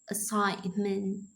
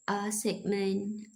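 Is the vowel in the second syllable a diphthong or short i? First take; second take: diphthong; short i. First: The second syllable has a gliding diphthong vowel. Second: The second syllable has a short i vowel. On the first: The speaker calls it right. "It should be pronounced as diphthong" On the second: The speaker calls it wrong. "like short I vowels"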